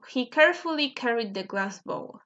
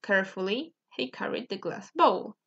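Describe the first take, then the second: First: Said in the usual way. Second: "Carefully" set apart with a rising tune; emphasis up front. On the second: Shown as a demonstration. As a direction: hold off after a rising "Carefully". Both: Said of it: "to emphasize".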